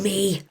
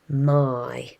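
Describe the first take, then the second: First: The word ends with an 'ee' vowel sound. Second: The word ends with an 'eye' vowel sound. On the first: The speaker calls it wrong. "Do not say me" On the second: The speaker calls it right. "this letter here in this word makes an I sound"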